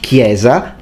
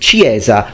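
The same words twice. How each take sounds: First: The word begins with a k sound. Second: The word begins with a ch sound. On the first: This is the modern pronunciation. "pronounce with a k sound" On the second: This is an imagined future pronunciation. "with a ch"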